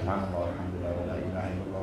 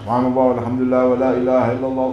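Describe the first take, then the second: First: It is said quietly and softly. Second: It is said loudly, like a funeral procession call.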